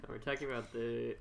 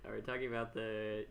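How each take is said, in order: Both takes have the same delivery.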